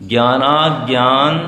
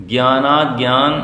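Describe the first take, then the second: No difference in how they are said.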